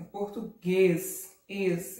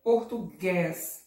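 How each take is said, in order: First: Português with a closed ê, slowly; slow português, then echo the closed ês; correct closed vowel. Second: Português with an open é, as portugués; wrong open vowel. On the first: Teacher correcting to closed ê in português. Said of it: "é um som mais fechado". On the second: Teacher showing the wrong way, português with open é. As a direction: mispronounce português with a wide-open final é. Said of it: "Eu não falo português". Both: Shown as a demonstration.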